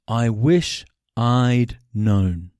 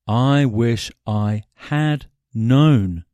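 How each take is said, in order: First: The word 'had' is reduced to a contraction. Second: The word 'had' is said in full.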